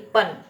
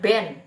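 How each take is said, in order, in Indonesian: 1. Kata ini dimulai dengan bunyi p. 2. Kata ini dimulai dengan bunyi b. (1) "B-nya jadi P" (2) "bukan dibacanya ben ya"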